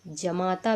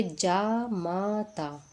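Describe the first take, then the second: First: जमाता with a short first "ja"; quick first syllable in जमाता; wrong vowel demo. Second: Slow जामाता with long "jaa"; correct vowel demo. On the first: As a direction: say जमाता as "ja-maa-taa". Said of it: "जमाता भी गलत है". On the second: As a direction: say जामाता as "jaa-maa-taa", syllable by syllable. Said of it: "जमाता कैसे लिखते हैं". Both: Shown as a demonstration.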